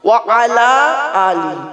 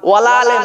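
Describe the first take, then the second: First: Three separate words with a clear final i. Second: The words merge, ending in a short e. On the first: The speaker calls it right. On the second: The speaker calls it wrong. "ওয়ালা আলে নয় বাবা"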